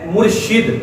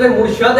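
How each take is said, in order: First: مرشد said as murshid, short i under the sheen, slow and clear; teacher sounds out مرشد slowly as mur-shid, an i on the sheen; murshid with zer. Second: مرشد said as murshad, short a on the sheen, slow and clear; teacher sounds out مرشد as mur-shad, an a on the sheen; murshad with zabar. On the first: Teacher showing viewers the correct مرشد, slowly spoken as murshid with i. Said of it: "شین کے نیچے کسرہ یعنی زیر کے ساتھ". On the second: Teacher contrasting the second مرشد for viewers, slowly spoken as murshad with a. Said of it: "شین کے اوپر، آ، زبر یعنی فتح کے ساتھ".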